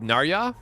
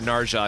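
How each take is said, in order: First: The middle consonant is a y sound. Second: The middle consonant is a hard j sound. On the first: "What if it's Ya? ... I think that's worse" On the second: "that just sounds wrong to me. Ja ja ja"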